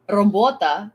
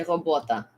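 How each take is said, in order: First: Robota with a clear rolled R; proper rolled R. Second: Robota with a throaty uvular R, no trill; burred R. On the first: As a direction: say robota, trilling the R. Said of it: "instead of saying". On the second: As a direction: say robota with a guttural French-like R. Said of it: "you would say". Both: Shown as a demonstration.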